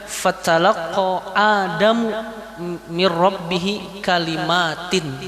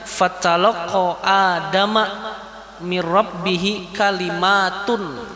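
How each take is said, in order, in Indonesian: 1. Adam berakhir dengan u, kalimat berakhir dengan in. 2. Adam berakhir dengan a, kalimat berakhir dengan un. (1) "di situ Adamu" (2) "membacanya fatalaqqa Adama mir rabbih kalimatun"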